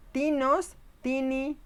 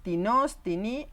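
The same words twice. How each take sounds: First: Tinos y tini con acento en la primera sílaba, agudo y alto; acento en la raíz. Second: Tinos y tini con la última sílaba acentuada, tono parejo; sin subir la primera sílaba de tinos; acento en la desinencia. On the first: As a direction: marca la TI de tinos y tini, más aguda. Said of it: "Este interrogativo siempre estará acentuado en la raíz". (acento marcado en la primera sílaba) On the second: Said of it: "En el indefinido teníamos". (acento indefinido, en la terminación) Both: Shown as a demonstration.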